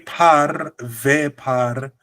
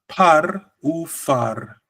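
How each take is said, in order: First: The last word starts with a P sound. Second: The last word starts with an F sound. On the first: The speaker calls it wrong. "it sounds very incorrect" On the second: The speaker calls it right. "So we have to say par u far. You see how it sounds?"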